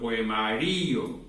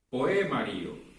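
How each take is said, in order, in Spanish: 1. El acento cae en la sílaba ri. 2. El acento cae en la sílaba e. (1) "pasaré esa acentuación prosódica de la ma a la iri" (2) "si yo quiero pasarle la acentuación prosódica a la E"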